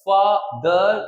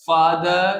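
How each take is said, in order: First: "फादर" broken as फा, दर; split in two. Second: Said in the usual way. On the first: Shown as a demonstration. Teacher showing two pieces of sound, "फादर" syllable by syllable. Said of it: "दो टुकड़ों में आवाज आ रही है". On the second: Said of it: "sound दो टुकड़ों में आए".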